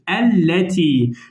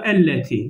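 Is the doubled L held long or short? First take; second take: long; short. First: The doubled L is held noticeably long. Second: The doubled L is held only briefly. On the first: "Tutmamın sebebi size belirtmektir arkadaşlar" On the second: "Yoksa elleti yani bu kadar"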